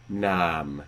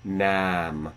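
First: The long vowel is pronounced as around 1400. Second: The long vowel is pronounced as around 1500. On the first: "So 1400" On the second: "1500, ... I could have raised that more"

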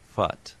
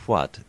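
First: It begins with a lip fricative sound. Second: It begins with a rounded approximant sound. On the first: This is how some Japanese speakers say it. "they would say fut" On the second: This is the usual native pronunciation. "the hua sound"

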